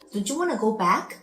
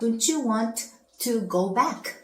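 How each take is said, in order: First: 'Want to' is run together as 'wanna'. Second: 'Want to' is said as two full words.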